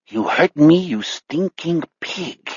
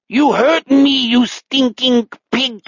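First: Slow, subdued alien German; outer space German accent. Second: High, slow, angry alien German; drawn-out pseudo-German outrage; outer space German accent. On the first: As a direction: drag it out, fading, in a mutant German accent. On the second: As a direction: wail the accusation in a high mutant German accent. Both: Acted. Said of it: "some kind of outer space German accent".

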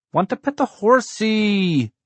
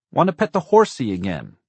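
First: Put-on very high, drawn-out little-boy yell; child's yell. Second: Put-on high, loud little-boy shout; child's shout. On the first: Small boy kicking Dad's seat, yelling his demand. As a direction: yell it slowly at full pitch, stretching the last word. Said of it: "Blake yelled". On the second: Four-year-old in the back seat demanding the horse, shouted. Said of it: "Blake shouted". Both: A narrator's reading.

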